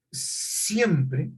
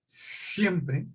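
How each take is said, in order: Both takes have the same delivery.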